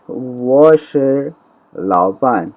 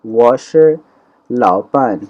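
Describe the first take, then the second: First: وہ شے drawn out slowly, then لاؤ پان falling; teacher reads the example sentence slowly for students; slow model Chinese. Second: Said in the usual way. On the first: Shown as a demonstration. Stretched classroom demo. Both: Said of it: "sentence ہے جی کہ".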